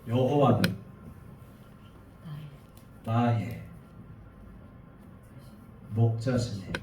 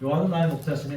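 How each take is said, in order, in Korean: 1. 이 구절은 단어 사이마다 쉬면서 천천히 읽습니다. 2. 이 구절은 쉬지 않고 매끄럽게 읽습니다. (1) "중간중간 침묵을 넣어요" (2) "우린 이렇게 읽잖아요"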